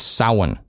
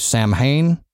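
First: It sounds like 'Sowin'. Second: It is said the way it is spelled. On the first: The speaker calls it right. "It's like Sowin" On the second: The speaker calls it wrong. "I've heard a lot of people say Samhain"

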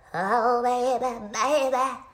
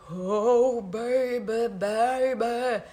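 First: It is said fast, like a sped-up recording. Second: It is said slowly, like a slowed recording.

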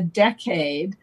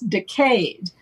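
First: It sounds like the ordinary word decade. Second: It sounds like decayed, British style.

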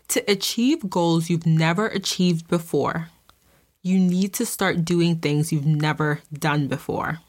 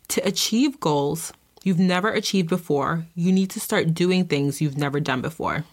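First: It is said emphatically, with extra force. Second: It is said plainly, without extra force.

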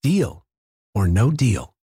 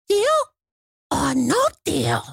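First: It is said in his own normal voice. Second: It is said in an Elmo voice.

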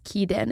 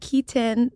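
First: The middle consonant sounds like a D. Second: The middle consonant is a clear T. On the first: The speaker calls it wrong. "there's no D" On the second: The speaker calls it right. "When I'm like introducing myself"

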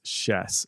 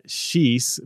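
First: The name is said unlike its spelling. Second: The name is read as it is spelled. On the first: The speaker calls it right. "it's actually pronounced Schiess" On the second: The speaker calls it wrong. "because that's what it looks like on paper"

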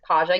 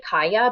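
First: The middle consonant sounds like an English j. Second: The middle consonant sounds like a y. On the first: This is how the reader imagined it. "but in my mind it was Kaja" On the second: This is how Czech speakers say it. "the way that they would pronounce it is actually Kaya"

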